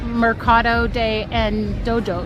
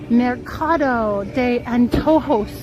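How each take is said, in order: First: It is said with an American English accent. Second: It is said with a Spanish accent. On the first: "I'll say it in Gringo" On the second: "That's my best Spanish accent"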